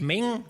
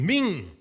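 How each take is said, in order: First: The vowel is an open e sound. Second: The vowel is a closed i sound. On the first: This is the common Bavarian form. "da sagt man nicht Meng" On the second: This is the form used in some Bavarian regions. "sondern Ming"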